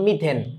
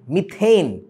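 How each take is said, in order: First: The last syllable has a short plain 'e' vowel. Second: The last syllable has a gliding 'ay' vowel. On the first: The speaker calls it wrong. "Bangla ভাষণে ভোলাবানের মতো করে মিথেন, মিথেন না" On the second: The speaker calls it right. "উচ্চারণটা কিন্তু এইন"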